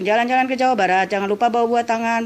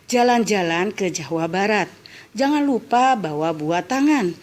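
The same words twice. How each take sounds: First: It is read quickly without pauses. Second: It is read slowly with pauses.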